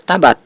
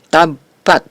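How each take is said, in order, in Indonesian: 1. Bunyi b dibaca tunggal dan pendek. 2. Bunyi b dibaca ganda dan ditahan lebih lama. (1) "bukan dibaca" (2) "huruf ba itu dibaca double"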